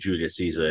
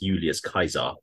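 First: The name is said with English pronunciation. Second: The name is said with classical Latin pronunciation. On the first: "we normally say Julius Caesar in English" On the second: "I'll be pronouncing it as Julius Caesar"

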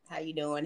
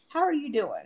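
First: It is said quickly in a casual, offhand way. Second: It is said slowly in an earnest, caring way. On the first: It is a routine greeting that expects no real answer. The speaker calls it wrong. "not like that everyday generic" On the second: The asker truly wants to know how the other is. The speaker calls it right. "Like literally"

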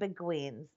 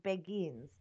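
First: The word is said as American spelling suggests. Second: The word is said in the British way. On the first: The speaker calls it wrong. "If you spelt it, you would think you're saying Beguines" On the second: The speaker calls it right. "the proper way to say it is Beguines"

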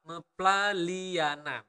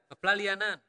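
First: The word is said slowly. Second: The word is said at natural speed.

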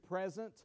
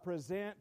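First: The stress is on the first syllable. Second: The stress is on the second syllable. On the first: Something given as a gift. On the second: To offer or hand over something.

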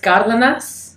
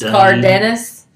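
First: The name is said with a Spanish pronunciation. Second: The name is said with an English pronunciation. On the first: The speaker calls it right. "is how you're supposed to say it" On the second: The speaker calls it wrong. "I went to school in Alabama, so that should tell you the pronunciation"

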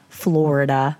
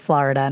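First: Florida is said without a Philadelphia pronunciation. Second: Florida is said with a Philadelphia pronunciation. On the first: "not Florida" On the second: "Any Philly listeners, you might say Florida"

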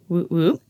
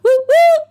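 First: It is said flatly, in a muted way. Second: It is said with lively excitement.

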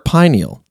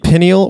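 First: The word does not begin like pinnacle. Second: The word begins like the word pinnacle.

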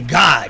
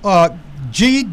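First: It is spoken as a single word. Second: Each letter is spoken separately. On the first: "or I just say God?" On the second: "Is that the way I say it"

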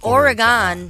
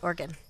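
First: The word is pronounced carefully, with full syllables. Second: The word is pronounced loosely, with reduced syllables. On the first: This is the technically correct pronunciation. "It's Oregon, technically" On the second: This is the lazy everyday pronunciation. "When you're lax speeching, it's Oregon"

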